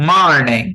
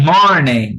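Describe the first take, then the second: The two takes are said the same way.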